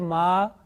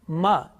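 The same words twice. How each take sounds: First: The vowel is drawn out long. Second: The vowel is short. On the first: The speaker calls it wrong. "it's wrong because this is long vowels" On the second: The speaker calls it right. "So if I say ma, is it right?"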